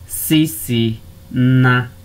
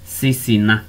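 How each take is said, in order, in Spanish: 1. Se dice despacio, separada en sílabas. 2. Se dice seguido, con las sílabas unidas.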